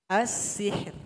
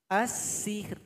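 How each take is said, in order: Both takes have the same delivery.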